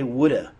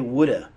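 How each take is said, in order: First: Have is reduced to a short 'uh' sound. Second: The same.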